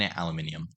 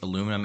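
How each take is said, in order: First: It is said with five syllables, ending -nium. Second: It is said with four syllables, ending -num. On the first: "and aluminium" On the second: "it can be pronounced both aluminum"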